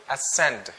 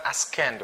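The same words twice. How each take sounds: First: Ascend with no k sound, "uh-SEND"; silent C. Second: Ascend with a hard k, "as-KEND"; wrong, sounded C. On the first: Teacher corrects the mistake, Ascend with silent c. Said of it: "it's like silent C". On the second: Teacher shows the mistake, ascend with hard k. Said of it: "It's not ascend". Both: Shown as a demonstration.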